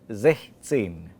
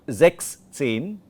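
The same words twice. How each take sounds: First: The s sound of sechs is dropped. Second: The s sound of sechs is kept. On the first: The speaker calls it right. "the S gets dropped out" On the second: The speaker calls it wrong. "not sechzehn"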